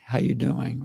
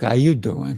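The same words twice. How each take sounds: First: It is said in a plain, everyday accent. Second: It is said in a New York accent.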